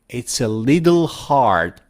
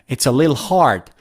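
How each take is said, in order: First: The t in little sounds like a soft d. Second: Little is shortened to a single syllable, lil. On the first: "native speakers say Lidl" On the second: "they don't even say de and they say lil"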